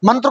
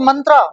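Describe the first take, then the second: First: The word ends without a long final vowel. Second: The word ends with a long a vowel. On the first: This is how Indians say it. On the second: This is how the English say it.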